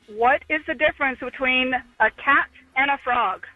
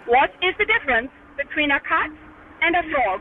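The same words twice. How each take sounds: First: It is said in her natural accent. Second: It is said in a put-on foreign accent.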